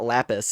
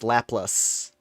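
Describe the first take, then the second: First: The second syllable has no L sound. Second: The second syllable begins with an L sound. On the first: The speaker calls it wrong. "I've been saying it wrong this whole time" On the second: The speaker calls it right. "It's Laplas"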